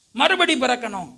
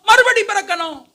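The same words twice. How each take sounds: First: Said in the usual way. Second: மறுபடி பிறக்கணும் pitched high and emphatic; emphatic answer. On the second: Real, not acted. Preacher answering his own question, மறுபடி பிறக்கணும் high and emphatic. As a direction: proclaim மறுபடி பிறக்கணும் in a raised voice.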